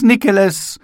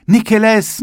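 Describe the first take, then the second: First: High, loud "Nikeles" falling at the end; eager boys' cry; calling again. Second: High, loud call of "Nikeles"; excited schoolboy cry; eager shout. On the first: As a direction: schoolboys pressing to the glass. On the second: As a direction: schoolboys calling at the shop window. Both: A narrator's reading.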